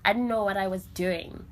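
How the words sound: It is said firmly, with conviction.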